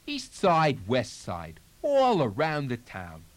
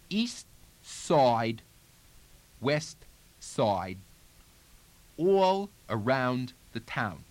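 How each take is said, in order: First: The words run together in connected speech. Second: Each word is said separately with pauses. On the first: "putting it back into more connected speech" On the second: "one word at a time again"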